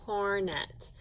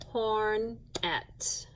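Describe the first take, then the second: First: Said in the usual way. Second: "Hornet." broken into "horn... et" with a gap; split into syllables. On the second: Shown as a demonstration. Teacher showing the class two syllables, word split apart. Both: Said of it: "Two syllables".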